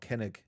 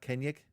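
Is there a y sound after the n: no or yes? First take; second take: no; yes. First: It is said without a y sound. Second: It is said with a y sound. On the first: The speaker calls it wrong. "you think it might be Kenneth or Kennig. It's not" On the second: The speaker calls it right. "almost like a, with a Y sound"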